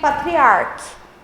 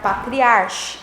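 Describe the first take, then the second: First: The final sound is a hard 'k' sound. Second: The final sound is a soft 'ch' sound. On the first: The speaker calls it right. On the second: The speaker calls it wrong.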